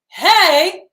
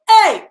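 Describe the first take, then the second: First: It starts softly with a breathy H. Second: It starts with a hard, harsh catch.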